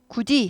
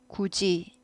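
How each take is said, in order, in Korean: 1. 두 번째 음절은 d 소리로 나요. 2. 두 번째 음절은 j 소리로 나요. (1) "굳이 하지 않고" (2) "굳이 지읒 발음이 나죠"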